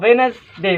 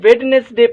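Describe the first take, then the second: First: The first d is silent, giving two syllables. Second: The first d is pronounced, giving three syllables. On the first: The speaker calls it right. "हिते डी ख़ामोश आहे" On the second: The speaker calls it wrong. "अक्सर students हिन खे वेडनेसडे पढ़ंदा आहिनि, सो बिल्कुलु ग़लति आहे"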